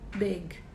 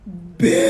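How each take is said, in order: First: It is said plainly, without emphasis. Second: It is said with expressive, emphatic energy.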